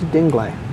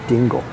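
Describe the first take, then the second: First: The word ends with a sounded final vowel. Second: The word ends without a final vowel sound. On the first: "They pronounce the I differently, and they pronounce the E" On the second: "using American pronunciation"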